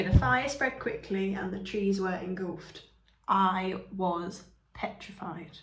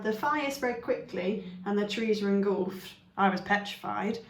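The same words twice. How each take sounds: First: Emphasis after the dash; dramatic pause. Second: Said in the usual way. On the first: Shown as a demonstration. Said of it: "you're putting a lot of emphasis on". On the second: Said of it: "it's almost like a side note".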